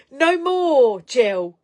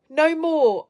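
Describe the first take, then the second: First: Playful loud no more; loud insistence. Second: Loud, high repeat of no more; playful firm no more; loud insistence again. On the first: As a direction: put your foot down on no more. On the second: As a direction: press the point home. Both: Real, not acted. Insisting viewer not go silent.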